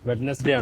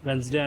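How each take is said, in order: First: It is said in a typical Indian pronunciation. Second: It is said in the general, widespread pronunciation. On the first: "మన Indian వాళ్ళకి వెడ్నెస్డే అంటారు" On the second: "యూనివర్సల్గా వెన్స్డే అని అంటారు"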